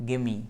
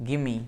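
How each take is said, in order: No difference in how they are said.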